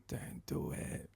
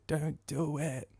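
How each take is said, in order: First: Slow, voiceless whisper; whispered warning. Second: Slow, soft, half-voiced plea; hushed warning. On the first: Retold or imitated. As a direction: barely mouth it, as a secret warning. Julia silently warns him. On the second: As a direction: draw it out under your breath. Repeats Julia's silent warning.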